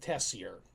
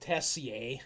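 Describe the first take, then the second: First: The name is pronounced the English way. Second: The name is pronounced the French way. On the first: "locals in Saskatchewan call it" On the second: "using the more French pronunciation"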